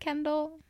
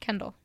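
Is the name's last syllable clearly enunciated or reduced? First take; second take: enunciated; reduced. First: The final syllable is clearly and fully pronounced. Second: The final syllable is reduced and said casually. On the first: "when I'm doing the little intro part ... I enunciate the dull" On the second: "how do you say it normally?"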